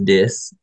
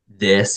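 First: The word is said in a Cajun accent. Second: The word is said in a plain accent. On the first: "he says this" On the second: "instead of saying this"

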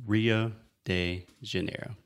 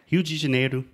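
First: It is said with an American English accent. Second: It is said with a Brazilian Portuguese accent.

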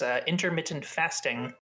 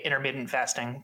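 First: The phrase is pronounced in an odd, fancy way. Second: The phrase is pronounced in a plain, everyday way. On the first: The speaker calls it wrong. "I said it weird" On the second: The speaker calls it right. "I would normally say intermittent fasting"

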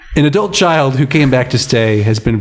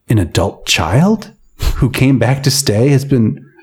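First: It is read with a plain statement tune. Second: It is read with a questioning tune. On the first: The speaker calls it right. "It's a sentence" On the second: The speaker calls it wrong. "I was reading that as a question"

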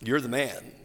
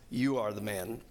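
First: It sounds like casual, admiring praise. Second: It sounds like a grave, pointed accusation.

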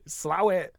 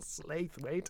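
First: The name is shortened to two quick syllables. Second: The name is said in full, as spelled. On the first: This is how local people say it. The speaker calls it right. "the locals pronounce it Slawit" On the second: This is how outsiders and the news say it. The speaker calls it wrong. "It's not Slathwaite"

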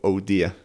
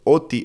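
First: It is said fully as 'oh dear'. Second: It is clipped into a childlike 'oti'. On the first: This is the phrase the child meant. "Yo creo que estaba diciendo, oh dear" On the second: A small child is saying it. "pasó una época ella diciendo, oti, oti, oti? Así"

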